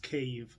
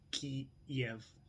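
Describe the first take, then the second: First: The name sounds like K followed by Eve. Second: The name is said in the Kiev form. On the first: The speaker calls it right. "imagine um, K Eve, like Adam and Eve" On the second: The speaker calls it wrong. "That's Russian. Don't say it that way"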